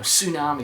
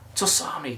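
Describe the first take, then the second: First: The initial T is silent. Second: The initial T is pronounced as its own syllable. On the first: The speaker calls it right. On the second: The speaker calls it wrong.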